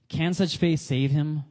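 The question is said as a rhetorical statement. The speaker already knows the answer is no. "now that's obvious it's a rhetorical"

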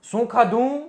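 It is asked in an irritated, angry tone. A scolding question. "ચીડથી અથવા તો ગુસ્સાથી પ્રશ્ન પૂછે"

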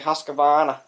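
It is said in a Boston accent. "because we get the Boston accent, we say Husqvarna"

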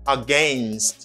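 The word is said in a Canadian pronunciation. "For Canadian English, you say against"

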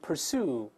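The first vowel is r-coloured, like er. "美国人把a 变成er。You 变成u"

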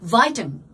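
The first syllable sounds like 'vie'. "ビタミンってアメリカでなんていうか知ってる？"

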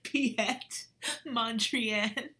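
It is said as if really funny.

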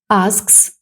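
It is said with a British accent. "В британській англійській"

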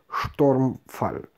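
The word is pronounced the German way. "По-немецки это читается как Stormfall"

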